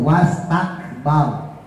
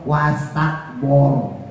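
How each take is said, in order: First: The last vowel sounds like open a. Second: The last vowel sounds like rounded o. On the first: The speaker calls it right. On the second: The speaker calls it wrong.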